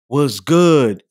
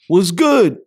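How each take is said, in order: First: It is said in a flirtatious, charming tone. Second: It is said as a casual friendly greeting.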